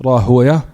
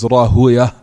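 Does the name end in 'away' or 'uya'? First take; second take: uya; uya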